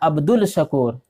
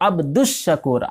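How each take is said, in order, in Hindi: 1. Shakur से पहले 'L' की आवाज़ बोली जाती है। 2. 'L' की आवाज़ दोहरी 'Sh' की आवाज़ में मिल जाती है। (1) "आप बोल देते हैं अब्दुल शकूर, तो ये गलत है" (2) "अल शकूर नहीं बोलेंगे, बल्कि अब्दुश शकूर"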